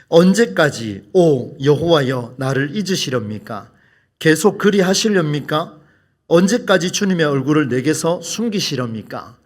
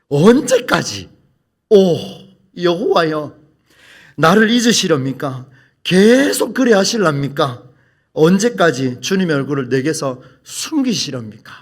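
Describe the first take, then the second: First: It is read softly and prettily. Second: It is read with strong force.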